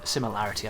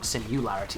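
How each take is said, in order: First: The second syllable has an 'i' vowel. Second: The second syllable has a 'u' vowel. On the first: The speaker calls it right. "similarity I should say" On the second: The speaker calls it wrong. "not simularity, it sounds like a simulacrum then"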